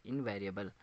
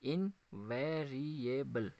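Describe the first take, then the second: First: Said in the usual way. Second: "इनवेरिएबल" very slowly in five beats, इन-वे-रि-ए-बल; split into syllables. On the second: Shown as a demonstration. Teacher counting syllables for students, "इनवेरिएबल" split in five. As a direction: say "इनवेरिएबल" slowly, pausing after each syllable. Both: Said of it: "देखते हैं कितने आते हैं".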